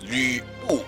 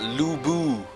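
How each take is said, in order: First: The name is said with a Chinese pronunciation. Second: The name is said with an American pronunciation. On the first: The speaker calls it right. "it's Chinese for God's sake. Say it right" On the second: The speaker calls it wrong. "it's not Lu Bu"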